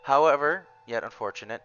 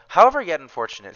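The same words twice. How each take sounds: First: There is a pause after however. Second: There is no pause after however.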